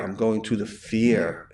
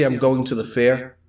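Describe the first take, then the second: First: "fear" where the word fair is meant, said softly; Rhode Island fair. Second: Said in the usual way. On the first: Shown as a demonstration. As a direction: say "fear" for fair, with an ee-like vowel before the R. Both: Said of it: "it sounds like fear".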